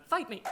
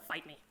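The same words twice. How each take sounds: First: High, loud "Fight me" yelled; loud challenge. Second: Said in the usual way. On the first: Retold or imitated. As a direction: throw down the gauntlet with a yell. Repeated challenge, escalated.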